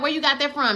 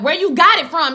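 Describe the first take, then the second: First: Said in the usual way. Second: Louder, higher, pressing question; insistent retold demand. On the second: Hippolyta pressing about the atlas, insistent. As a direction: hit it harder, demanding an answer.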